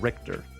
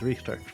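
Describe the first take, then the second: First: The name is said the English way. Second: The name is said the German way.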